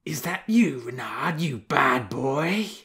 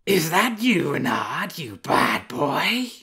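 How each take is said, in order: First: Dreamy she-wolf voice. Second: Higher, slow, fond scolding of a she-wolf; soft she-wolf voice. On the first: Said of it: "Lady Ursa spoke aloud in her dreams". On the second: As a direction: tease the fox gently as a she-wolf. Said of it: "A wolf's voice again, but softer this time". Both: A narrator's reading.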